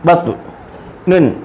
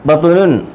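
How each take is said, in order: First: It is said slowly, syllable by syllable. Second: It is said quickly as one joined word.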